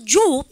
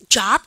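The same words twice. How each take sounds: First: The vowel is a rounded 'o' sound. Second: The vowel is an open 'ah' sound. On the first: "오로 하라는 얘기 아닌가? 그래서 job 이래야 되지 않나?" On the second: "이게 오인데 왜 job 그러세요?"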